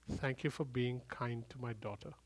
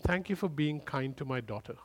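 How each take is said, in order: First: Much softer, almost breathed repeat; hushed repeat. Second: Softly grateful; tender voice of God. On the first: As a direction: let it fade to a near hush. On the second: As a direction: thank him gently. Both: Retold or imitated. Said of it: "He said".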